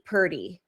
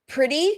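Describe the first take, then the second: First: The first syllable is reduced to 'pur'. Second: The first syllable is a clear 'pre'.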